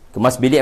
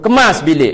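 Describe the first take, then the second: First: It is said softly and gently. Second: It is said loudly with a raised voice. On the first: It is the first request. The speaker calls it right. "yang pertama lembut" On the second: The request has been repeated many times. The speaker calls it wrong. "kali ke sepuluh"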